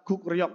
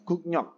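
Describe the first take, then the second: First: It is read with k then r in the middle. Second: It is read with k then n in the middle. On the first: "gukryok tulisannya" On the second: "tapi membacanya"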